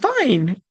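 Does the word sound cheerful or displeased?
cheerful. It is said warmly, with a smile. The person really is fine. "they really mean it with a smile"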